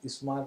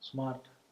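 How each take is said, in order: First: An 'i' vowel is added before the s. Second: The word starts directly with the s.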